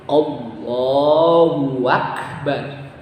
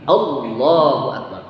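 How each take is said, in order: First: A 'w' sound is inserted between the words. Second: All vowels keep their normal short length. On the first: It splits the phrase into God and great. The speaker calls it wrong. "di tengah-tengahnya diselipin huruf waw" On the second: It declares that God is the greatest. The speaker calls it right. "Jadi Allahu akbar"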